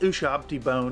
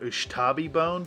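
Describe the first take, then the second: First: The name's middle sounds come in the printed order. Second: The name's middle sounds come in a misread order.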